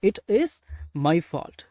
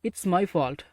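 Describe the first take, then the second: First: "It is" is said as two full words. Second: "It is" is contracted to "it's". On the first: "இந்த இட் இஸோட" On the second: "short form தான் இட்ஸ்"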